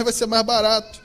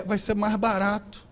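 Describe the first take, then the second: First: Said in the usual way. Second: "vai ser mais barato" slower and softer, leaning on "mais"; slow down and press "mais" gently; emphatic. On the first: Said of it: "Perguntar como é que faz". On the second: Shown as a demonstration. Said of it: "Perguntar pro patrão como é que é".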